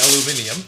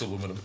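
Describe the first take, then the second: First: It is said the British way. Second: It is said the American way. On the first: "We wanted to say it correctly" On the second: "if we want to be nice and American"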